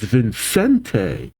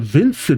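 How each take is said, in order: First: The name ends with an added vowel sound. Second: The name ends on the t sound. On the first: The speaker calls it right. "he does have the E at the end" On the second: The speaker calls it wrong. "it's not Vincent"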